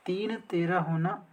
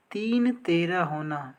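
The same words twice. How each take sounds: The two takes are said the same way.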